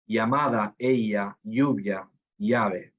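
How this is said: It is said with another Latin American accent.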